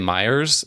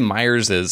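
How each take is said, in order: First: The name ends without an extra syllable. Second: The name ends with an extra -iz syllable. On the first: The speaker calls it wrong. "they just say Myers" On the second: The speaker calls it right. "When I say Myers is"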